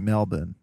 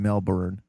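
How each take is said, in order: First: It is said with an Australian accent. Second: It is said with an American accent.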